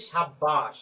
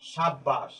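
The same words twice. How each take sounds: First: সাব্বাস said quickly in the teacher's usual voice; just name the word সাব্বাস; word said plainly. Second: সাব্বাস said carefully, with a clearly doubled b, sab-bash; careful pronunciation. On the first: Teacher naming the example word সাব্বাস for students. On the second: Teacher sounding out সাব্বাস so students hear the double b. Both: Shown as a demonstration. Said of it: "খেয়াল করো".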